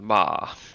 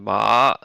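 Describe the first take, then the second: First: The pitch rises lightly and then drops. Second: The pitch rises through the syllable. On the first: "like light rising dropping tone" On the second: "the rising tone"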